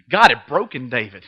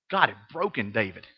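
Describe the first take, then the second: First: Said in the usual way. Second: Dropped almost to a whisper, stunned; hushed. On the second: Real, not acted. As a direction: let it sink in, very softly. Stunned quiet restatement.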